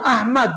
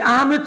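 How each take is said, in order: First: The vowel after the m is 'a'. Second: The vowel after the m is 'e'. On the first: The word means highly praised. The speaker calls it right. "মিমের উপর জবর দিয়ে পড়তে হবে।" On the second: The word has no meaning. The speaker calls it wrong. "এই আহমেদ শব্দের কোনো অর্থ নেই।"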